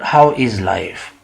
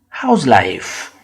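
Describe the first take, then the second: First: The verb is said in full as is. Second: The verb is contracted into how's. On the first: The speaker calls it wrong. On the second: The speaker calls it right.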